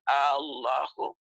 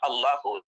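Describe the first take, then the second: First: The first vowel is drawn out long. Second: The first vowel is said short. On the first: It turns into a question asking whether God is great. The speaker calls it wrong. "kalau alifnya dipanjangkan" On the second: It simply names God. The speaker calls it right. "harus pendek"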